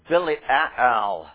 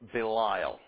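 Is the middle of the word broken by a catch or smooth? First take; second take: broken; smooth. First: Two separate a sounds with a break between. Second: The vowels run together without any break. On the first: "You have to make that short A sound two times right next to each other" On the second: "Or as you're used to hearing it"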